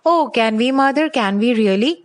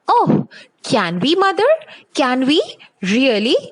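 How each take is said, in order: First: It is read in a flat, dull voice. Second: It is read in a lively, excited voice. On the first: The speaker calls it wrong. "it cannot be read like this" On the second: The speaker calls it right. "it sounds more interesting"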